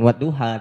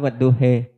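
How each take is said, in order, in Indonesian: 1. Kata itu berakhir dengan vokal a terbuka. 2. Kata itu berakhir dengan vokal mirip i. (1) "bukan wadduha" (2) "tapi wadduhi"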